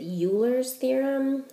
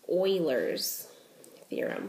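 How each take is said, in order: First: Euler begins with a 'yoo' sound. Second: Euler begins with an 'oy' sound. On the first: The speaker calls it wrong. "I've always pronounced it" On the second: The speaker calls it right. "it actually is pronounced"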